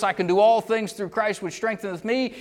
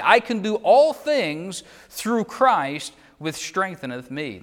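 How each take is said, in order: First: Higher, rousing hurrah reading; rally verse. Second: Said in the usual way. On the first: Shown as a demonstration. Preacher showing how people cheer the verse, rousing. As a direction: lift it like a rally cry. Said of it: "It's a rally verse". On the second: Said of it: "That's a hurrah verse".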